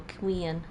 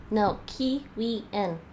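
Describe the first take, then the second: First: Kiwian stressed on its first syllable, KI-wian. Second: No, Kiwian drawn out slowly, every syllable of Kiwian spelled out; slow correction. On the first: Showing the chat how Kiwian is stressed, KI-wian. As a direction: lean on the KI of Kiwian. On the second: Correcting the chat on Kiwian, slow and deliberate. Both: Shown as a demonstration. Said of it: "keep the stress on the first syllable".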